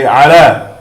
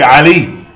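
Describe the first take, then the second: First: The word ends with an 'ah' sound. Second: The word ends with an 'ee' sound. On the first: The speaker calls it right. "We say ala" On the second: The speaker calls it wrong. "we don't say Ali"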